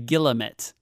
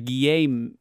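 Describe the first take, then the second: First: The word is pronounced the English way. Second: The word is pronounced the French way.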